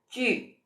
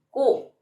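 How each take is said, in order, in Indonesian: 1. Diawali bunyi ch, bibirnya dibulatkan. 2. Diawali bunyi k biasa. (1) "dimonyongin bibirnya" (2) "bukan ku"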